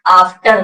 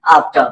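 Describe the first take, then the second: First: आफ्टर said with a clear R at the end; full-R version of आफ्टर; wrong full R. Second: आफ्टर ending "tuh", lower and falling; short, low आफ्टर without R; silent R. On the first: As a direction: sound the "tar" in आफ्टर. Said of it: "आफ्टर नहीं बोलना है". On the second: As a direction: drop the R and let आफ्टर fall. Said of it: "नहीं बोलना है". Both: Shown as a demonstration.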